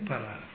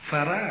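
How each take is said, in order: First: The word begins with a hard p sound. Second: The word begins with a soft f sound. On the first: The speaker calls it wrong. "לא אומרים פרה" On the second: The speaker calls it right. "ועושה במקום פה פה"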